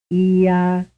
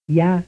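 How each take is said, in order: First: Two separate syllables; two-vowel sequence. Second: One syllable, glide into vowel; semivowel plus vowel. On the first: Teacher contrasting two vowels with a glide. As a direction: keep the vowels apart. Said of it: "A, a two-vowel sequence". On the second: Teacher contrasting a glide with two vowels. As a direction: run y into the vowel. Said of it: "B, a sequence consisting of semivowel plus vowel". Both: Shown as a demonstration.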